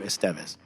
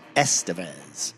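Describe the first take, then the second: First: The name is said with a Spanish-style pronunciation. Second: The name is said with an American English pronunciation. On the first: This is the name as said in its language of origin. The speaker calls it right. "clearly Mexican or South American or Latin in origin name" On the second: This is how Americans usually say the name. The speaker calls it wrong. "I've only ever heard him referred to as Estevez"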